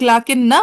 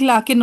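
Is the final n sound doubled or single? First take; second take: doubled; single. First: The final n is doubled and followed by a vowel. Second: The final n is single with no following vowel. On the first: "एक तशदीद वाला" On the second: "एक सुकून वाला"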